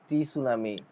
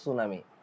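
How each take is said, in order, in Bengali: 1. 's'-এর আগে একটি 't' ধ্বনি শোনা যায়। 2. শব্দটি সরাসরি 's' ধ্বনি দিয়ে শুরু হয়। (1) "তো আমাদের প্রোনাউন্সিয়েশন ভুল, একেবারেই ভুল" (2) "আমাদেরকে বলতে হবে সুনামি"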